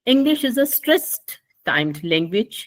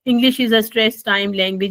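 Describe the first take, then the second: First: It is read with clear stress and intonation. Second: It is read flatly, without stress or intonation. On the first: The speaker calls it right. "मुझे इसको अदा करना चाहिए इस तरह से" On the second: The speaker calls it wrong. "Plain language में पढ़ूं इंग्लिश को, और उसके अंदर मैं कोई स्ट्रेस और इंटोनेशन यूज ना करूं"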